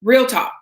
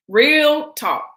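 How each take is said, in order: First: "Real talk" said firmly with a drop on "Real"; emphatic. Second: "Real talk" pitched higher, slower, "Real" stretched; more emphatic. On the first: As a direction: state "Real talk" plainly but with weight. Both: Real, not acted.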